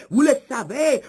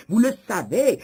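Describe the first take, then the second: No difference in how they are said.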